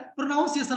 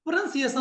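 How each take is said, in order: First: "प्रोनाउंसिएशन" said pro-naun-si-ay-shun; the mistaken "प्रोनाउंसिएशन", NAUN in the middle; common mispronunciation. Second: "प्रोनंसिएशन" said pra-nun-si-ay-shun; correct pronunciation. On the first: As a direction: say "प्रोनाउंसिएशन" with the ow of noun. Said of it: "क्या बोलता है?". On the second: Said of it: "नहीं, प्रोनंसिएशन होता है". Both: Shown as a demonstration.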